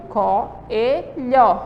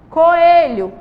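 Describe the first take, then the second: First: Said in the usual way. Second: "Coelho" split as co-e-lho with clear breaks; syllable by syllable. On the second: Shown as a demonstration. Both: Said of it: "em sílabas diferentes".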